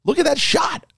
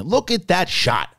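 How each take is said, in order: First: Much higher, thrilled; amazed. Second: Impressed. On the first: Fan gushing over the shot, amazed and much higher. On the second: First look at the shot. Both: Real, not acted.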